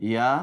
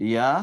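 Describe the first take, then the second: No difference in how they are said.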